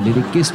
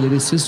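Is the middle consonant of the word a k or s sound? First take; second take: k; s. First: The middle consonant is a k sound. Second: The middle consonant is an s sound. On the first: The speaker calls it wrong. "लिरिकिस्ट नहीं होता" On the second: The speaker calls it right. "लिरिसिस्ट होता है"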